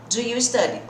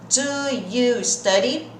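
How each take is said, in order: First: The words are spoken at normal speed, joined. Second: The words are spoken slowly, each one separate.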